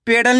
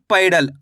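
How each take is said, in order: First: पेडल with a single long "e" sound, "pe-dal"; mispronounced पेडल, first vowel kept as plain "e"; wrong vowel. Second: पैडल with a gliding "a-i", "pai-dal"; पैडल said with a clear "aai" diphthong; "ai" vowel sound. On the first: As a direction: say पेडल with "pay", no "ai" glide. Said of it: "पेडल नहीं पढ़ना". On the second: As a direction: open the first syllable of पैडल into "pai". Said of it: "आई करके उच्चारण निकालना है". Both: Shown as a demonstration.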